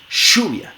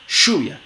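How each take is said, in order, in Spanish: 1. El primer sonido es una sh sorda. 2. El primer sonido es una sh sorda.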